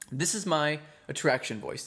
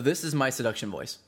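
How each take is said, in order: First: It is a light voice from the throat. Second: It is a deep voice from the diaphragm.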